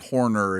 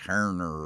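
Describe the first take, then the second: First: The first syllable sounds like 'hor'. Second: The first syllable sounds like 'her'. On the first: The speaker calls it wrong. "I always say it, say it wrong. It's not Horner" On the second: The speaker calls it right. "it's Herner"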